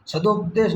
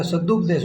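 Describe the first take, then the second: First: सदोपदेश with an "o" after the d; wrong form with ो. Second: सदुपदेश with a short "u" after the d; correct form with ु. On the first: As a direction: show the error, सदोपदेश with a long "do". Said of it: "सदोपदेश नहीं होता है". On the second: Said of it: "सदुपदेश होता है". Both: Shown as a demonstration.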